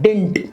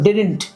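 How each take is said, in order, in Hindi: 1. बीच की d ध्वनि छूट जाती है। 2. दोनों d ध्वनियाँ साफ़ बोली जाती हैं। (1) "उसको शॉर्ट में डिंट भी बोलते हैं लोग" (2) "डिडंट नहीं बोलते"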